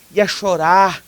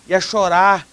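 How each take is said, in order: Both takes have the same delivery.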